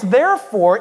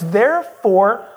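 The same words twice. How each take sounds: First: Said in the usual way. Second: "there for" said as two separate stressed words; split-word stress. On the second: Shown as a demonstration. Pastor explaining the word to church, "there for" split and stressed. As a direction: pull "there for" apart, weight on each word. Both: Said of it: "to stress the fact that".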